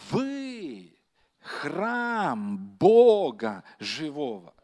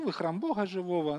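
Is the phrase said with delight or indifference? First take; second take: delight; indifference. First: It is said with joyful, excited delight. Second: It is said flatly, with shrugging indifference. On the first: This is something wonderful and unique. The speaker calls it right. "там настолько великий восторг, там настолько большая радость" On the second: This is nothing special. The speaker calls it wrong. "там не так сказано: «Ну"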